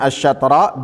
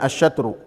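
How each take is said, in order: First: The word ends with an a vowel. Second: The word ends with a u vowel. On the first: "Bisa dibacanya asyatra" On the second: "Bisa juga dibacanya asyatru"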